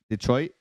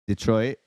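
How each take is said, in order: First: It is said with an English pronunciation. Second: It is said with an English pronunciation.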